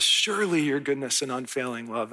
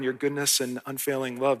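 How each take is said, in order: First: "Surely" leaned on, the line opening with it; stress on Surely. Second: Said in the usual way. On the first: Shown as a demonstration. Pastor quoting David, landing hard on "Surely". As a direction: give "Surely" the weight, then flow on. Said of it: "And I love that". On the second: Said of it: "but he says".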